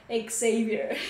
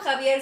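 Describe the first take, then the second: First: The name begins with a z sound. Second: The name begins with a throaty h-like sound. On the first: This is how the name is said in the United States. "en EEU se pronuncia Xavier" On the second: This is how the name is said in Spanish. "Se pronuncia como Javier"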